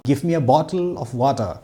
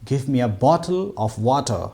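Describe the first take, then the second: First: The t sounds are crisp and clearly stressed. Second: The t sounds are crisp and clearly stressed.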